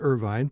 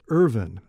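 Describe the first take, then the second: First: The name ends as if spelled with final E. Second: The name ends as if spelled without final E. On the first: This is how most locals said it. "had always heard it Irvine and always said Irvine" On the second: This is how the family says it. "pronounced as if there were no final E on it"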